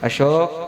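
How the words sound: The name is called in a cooler, changed tone. A couple of years in, the affection has faded.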